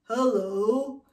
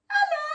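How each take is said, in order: First: It is said deep, from the belly. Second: It is said high, resonating in the head.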